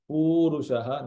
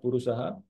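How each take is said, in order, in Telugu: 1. మొదటి అచ్చును దీర్ఘంగా పలుకుతారు. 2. మొదటి అచ్చును హ్రస్వంగా ఉంచుతారు. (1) "is a dirgham on the pu"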